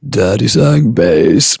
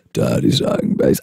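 First: Slow, low mock bass singing; sung bass line. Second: Sung, extremely low, rumbling bass; sung, drop to the very bottom of your range; sung, deep bass line. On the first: Cold sufferer tests their low range, sung bass. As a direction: sing it deep and drawn out. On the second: Acted. Sung, cold sufferer amazed by their new depth, deep bass. Repeats lyric much lower.

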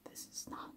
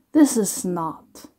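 First: Breathless whispered disbelief; barely audible whisper. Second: Said in the usual way. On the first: Real, not acted. Stunned disbelief, repeating.

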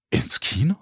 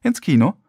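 First: Rising, disbelieving question on KINO; incredulous outburst. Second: Higher incredulous echo with falling end; explosive disbelief. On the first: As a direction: echo "Kino" in disbelief, pitch climbing at the end. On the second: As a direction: throw "ins Kino" back at her, starting high on INS. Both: A narrator's reading. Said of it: "explodierte mein Mund".

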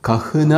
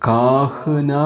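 First: കഹ്ന said with a short clipped first a, lifted high; short a reading. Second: കാഹ്ന said slowly with a long drawn-out first ā; long a reading. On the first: Teacher giving students the correct short-a reading, pitched up. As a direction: keep the a in കഹ്ന short and quick. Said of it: "ഈ വാക്ക് വായിക്കേണ്ടത്". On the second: Teacher showing students the old long-ā reading, drawn out slowly. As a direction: stretch the first vowel of കാഹ്ന long and slow. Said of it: "നമ്മൾ പഠിച്ചതനുസരിച്ച് ഇത് വായിക്കേണ്ടത്". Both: Shown as a demonstration.

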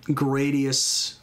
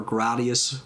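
First: Gradius said as GRAY-dee-us; first pronunciation variant. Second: Gradius said as GRAH-dee-us; alternative pronunciation. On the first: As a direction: say Gradius with a long "ay" in the first syllable. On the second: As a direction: say Gradius with an open "ah" in the first syllable. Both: Shown as a demonstration. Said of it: "whatever you wanna pronounce it".

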